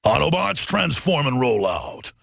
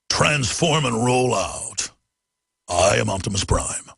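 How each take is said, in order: First: Low, slow robot commander voice; deep heroic robot leader call; Optimus Prime impression. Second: Much lower, very slow robot growl; Optimus Prime impression. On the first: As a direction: give the order as a giant robot hero. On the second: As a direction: rumble it out like a giant robot. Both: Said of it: "What about an Optimus Prime?".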